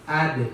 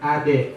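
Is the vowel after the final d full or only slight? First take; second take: slight; full. First: The final d releases with only a slight e-like sound. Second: The final d is followed by a full e vowel. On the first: The speaker calls it right. "condong bunyi ke huruf e" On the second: The speaker calls it wrong. "Jangan dibuat ab, aj, ade. Bukan itu ya"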